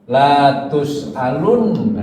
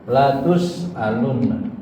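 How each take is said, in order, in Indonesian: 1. Vokal pertama, la, dibaca panjang. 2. Vokal pertama, la, pendek.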